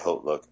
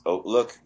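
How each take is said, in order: First: The word begins with a clear h sound. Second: The word begins with a vowel, no h sound. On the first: This is how the company itself says it. "but they say Hotlook" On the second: This is the technically correct French-style pronunciation. "technically it's pronounced Oatlook"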